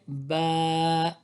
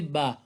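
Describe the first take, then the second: First: The vowel is drawn out longer. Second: The vowel is said short. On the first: The speaker calls it right. "you have to increase a little bit length of the word" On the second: The speaker calls it wrong. "Don't say Ba"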